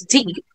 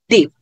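First: The final p ends with a puff of air. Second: The final p ends without a puff of air. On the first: "sometimes aspirated if deep is pronounced as deep" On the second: "they may just as well not be able if deep is pronounced deep"

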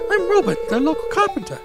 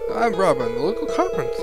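First: It is read in a put-on British character voice. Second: It is read in the speaker's ordinary voice. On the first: The speaker calls it right. "I don't know why I'm British, but I guess I am" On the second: The speaker calls it wrong. "Sorry, I should be doing a better voice"

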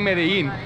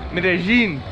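First: The name is said with an English-style pronunciation. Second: The name is said with a Spanish-style pronunciation. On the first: The speaker calls it wrong. "I keep saying Medellin, but I feel like I'm gonna piss off a lot of Colombians" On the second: The speaker calls it right. "it's a lot better"

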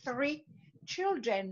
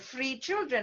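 First: The first word starts with a th sound. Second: The first word starts with an f sound. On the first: The speaker calls it right. "she's saying she has three children" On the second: The speaker calls it wrong. "not like I have three children"

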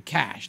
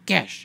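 First: The word has a plain English vowel. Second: The word is said with a Greek accent. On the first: "the Greeks don't say cash" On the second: "They go cash"

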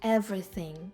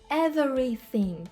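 First: A syllable is dropped, making it shorter. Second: All syllables are pronounced fully and clearly. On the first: "а можна сказати everything" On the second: "можна сказати повністю everything, підкреслити"

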